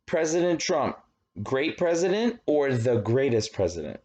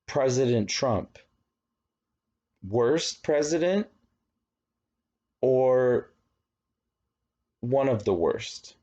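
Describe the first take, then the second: First: Higher, gushing question steering toward greatest; loaded poll question. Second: Slow, pointed question steering toward worst; loaded poll question. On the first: Teacher acting a biased pollster, slanted in favour. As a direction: pitch it up and sell the praise. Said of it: "Or if I said". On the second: Teacher acting a biased pollster, slanted against. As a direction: lean on the negative, pausing to push the answer. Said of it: "And then you have a bad question". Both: Shown as a demonstration.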